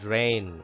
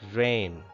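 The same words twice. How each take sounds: The two takes are said the same way.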